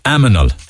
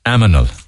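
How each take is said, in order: First: The m sound comes before the n sound. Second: The m sound comes before the n sound.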